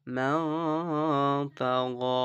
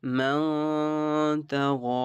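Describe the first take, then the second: First: মান held nasally, very slow; nasal ghunnah demo. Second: মান hummed through the nose, slow and higher; nasal ghunnah demo. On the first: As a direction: hum মান through the nose before তাগা. (মান নাকে টেনে) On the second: (মান এ গুন্নাহ) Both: Shown as a demonstration. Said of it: "গুণনা করবো".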